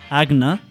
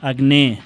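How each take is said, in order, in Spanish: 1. El acento cae en la penúltima sílaba. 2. El acento cae fuera de la penúltima sílaba. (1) "fent-les tal com són, planes" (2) "no haurem de dir"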